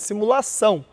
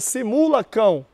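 First: The consonant before the last vowel is an s sound. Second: The consonant before the last vowel is a k sound. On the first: The speaker calls it right. "é simulação" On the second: The speaker calls it wrong. "Se tirar o cedilha, fica simulacão"

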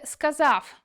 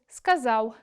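First: The final sound is a full v consonant. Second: The final sound is a soft w-like glide. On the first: The speaker calls it wrong. "зовсім неправильною вимовою" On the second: The speaker calls it right. "У кінці складу «в» вимовляємо як унескладовий «в»"

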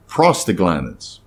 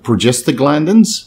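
First: The word begins with the sounds 'prost'. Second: The word begins with the sounds 'progest'. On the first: The speaker calls it right. "it's prostaglandins. Derived from prostate" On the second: The speaker calls it wrong. "it's not progestaglandins"

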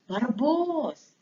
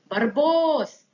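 First: The name is called somewhat more quietly. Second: The name is called out loudly. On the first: The dog is getting closer. "Тихіше" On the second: The dog is far away. "Спочатку голосно, тому що він далеко"

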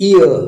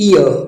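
Both takes have the same delivery.

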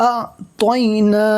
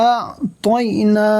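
The two takes are said the same way.

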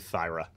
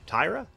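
First: The name starts with a th sound. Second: The name starts with a plain t sound.

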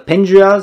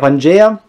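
First: The name is said with an American pronunciation. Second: The name is said with an Italian pronunciation. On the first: "sagen die Amerikaner" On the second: "In Italien sagen wir Pangea"

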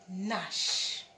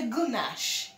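First: The word begins directly with the N sound. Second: A hard G sound is heard before the N. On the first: The speaker calls it right. "You're just going to say nash" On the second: The speaker calls it wrong. "You don't say gunash, because the G is silent"

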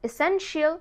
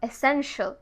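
First: The ending is said as two syllables, shee-al. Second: The ending is said as one syllable, shal. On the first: The speaker calls it wrong. "আমরা কি বলি?" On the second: The speaker calls it right. "but it's actually essential"

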